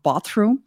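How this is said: The word is said with a British vowel. "not bathroom, which is how I grew up"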